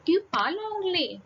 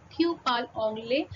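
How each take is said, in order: First: "Tu parles anglais?" asked as a question, pitch raised high; question intonation. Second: Said in the usual way. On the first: Shown as a demonstration. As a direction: lift the tune on "Tu parles anglais?" to make it a question. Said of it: "suddenly my tone changes". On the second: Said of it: "my tone will remain same".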